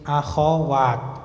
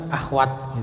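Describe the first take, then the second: First: There is a vowel after the kh sound. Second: There is no vowel after the kh sound. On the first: The speaker calls it right. "ini yang betul kha-nya fathah" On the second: The speaker calls it wrong. "yang sering kita ucapkan kan akhwat gitu aja"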